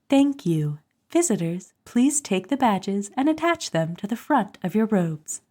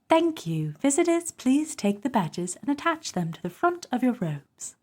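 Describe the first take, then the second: First: It is said in her own, non-British accent. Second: It is said in a put-on British accent.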